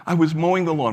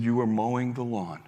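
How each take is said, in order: First: Higher and louder, stressing "mowing"; upset young man. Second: Said in the usual way. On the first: Retold or imitated. Young man tells Frank what happened, loud and higher. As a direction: blurt "I was mowing the lawn" in distress.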